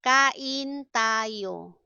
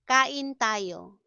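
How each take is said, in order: First: Stretched, deliberate syllables; slow teaching model. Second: Said in the usual way. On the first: Shown as a demonstration. Teacher models an invitation to eat, slowly. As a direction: draw each syllable out for learners.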